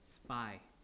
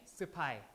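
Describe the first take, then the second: First: The consonants run together in one syllable. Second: A vowel splits the first two consonants. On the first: "English is just spy, like that" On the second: "you have to break it and insert a vowel here"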